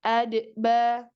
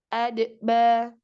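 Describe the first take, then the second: No difference in how they are said.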